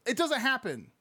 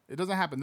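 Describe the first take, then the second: First: Doesn't jumped up high and hit hard; stress on doesn't. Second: Said in the usual way. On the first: Real, not acted. Streamer insisting to chat, doesn't punched high. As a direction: lean into doesn't, incredulous.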